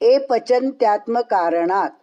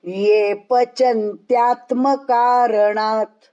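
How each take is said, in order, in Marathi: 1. पहिला शब्द नुसत्या 'e' स्वराने सुरू होतो. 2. पहिला शब्द 'y' आवाजाने सुरू होतो. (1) "ए नहीं, ए पचन्त्यात्म कारणात् ऐसा बोलना नहीं" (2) "ये ये यज्ञ का ये"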